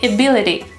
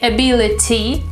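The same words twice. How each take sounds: First: The T sounds like a D. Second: The T is a crisp T. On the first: The speaker calls it right. "we say" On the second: The speaker calls it wrong. "We don't say"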